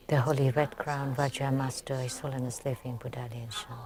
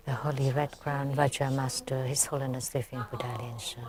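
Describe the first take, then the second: No difference in how they are said.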